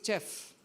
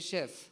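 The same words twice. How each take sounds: First: The word begins with a ch sound. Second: The word begins with a soft sh sound. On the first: The speaker calls it wrong. "they have learned something like uh, chair" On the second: The speaker calls it right. "you say chef"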